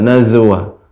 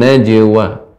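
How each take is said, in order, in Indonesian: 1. Konsonan tengahnya bunyi z. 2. Konsonan tengahnya bunyi j. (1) "tidak nazwa" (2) "namun najwa"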